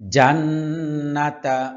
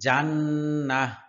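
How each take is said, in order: First: The word ends with a full 'ta' syllable. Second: The word ends with a soft 'h' sound. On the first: The reader continues without stopping. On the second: The reader stops at this word.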